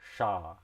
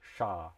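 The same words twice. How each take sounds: No difference in how they are said.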